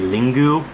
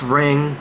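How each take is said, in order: First: Two syllables, starting with l, ending in u. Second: One syllable, starting with r, no final vowel. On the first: This is a truer Japanese pronunciation. "if it was real Japanese pronunciation, it would be Lingu" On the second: This is the English title. "It's Ring"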